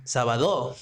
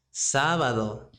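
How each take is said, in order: First: Sábado misstressed as sa-ba-DO, pitch peak on DO; wrong last-syllable stress. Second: Sábado said as SÁ-ba-do, stress up front; stress on first syllable. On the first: Teacher demonstrates another mistake to avoid, sábado stressed as sa-ba-DO. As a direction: throw the stress to the end of sábado: sa-ba-DO. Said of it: "It's not sábado, right?". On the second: Teacher gives learners the correct word, Sábado stressed on SÁ. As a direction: hit the first syllable of Sábado, then let it fall. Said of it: "We need to respect the accent point". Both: Shown as a demonstration.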